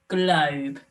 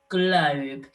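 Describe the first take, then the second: No difference in how they are said.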